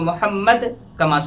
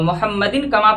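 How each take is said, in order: First: It pauses after Muhammad, dropping the -in ending. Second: It flows on without a pause, keeping the -in ending. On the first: "अगर मोहम्मद पर रुक जाएं तो मोहम्मद कमा सल्लैता पढ़ना है" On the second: "मुहम्मदिन में ना रुके तो मुहम्मदिन कमा पढ़ना है"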